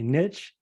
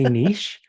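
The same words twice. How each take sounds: First: The word is said with an American pronunciation. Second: The word is said with a French pronunciation. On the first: The speaker sounds plain and ordinary. "the good old American way" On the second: The speaker sounds sophisticated. "you would like to use the French word because it just sounds nicer"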